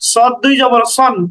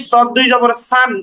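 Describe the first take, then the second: First: The last syllable is said with an 'o' vowel. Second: The last syllable is said with an open 'a' vowel. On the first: The speaker calls it right. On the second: The speaker calls it wrong. "কখনোই সদ দুই জবর সান এমন না"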